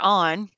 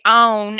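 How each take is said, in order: First: Said in the usual way. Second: "on" said with a long oh, like "own"; regional "on". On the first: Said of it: "instead of". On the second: Shown as a demonstration. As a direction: say "on" to rhyme with "own". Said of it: "people that say".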